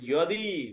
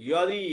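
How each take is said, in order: First: The word begins with a 'y' sound. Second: The same.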